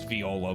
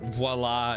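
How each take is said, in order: First: The name is said like the instrument viola. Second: The name is said like the French word voila. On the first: This is the name's real pronunciation. "I know it's Viola" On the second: This is a joke pronunciation used for fun. "Voila is going to be very funny"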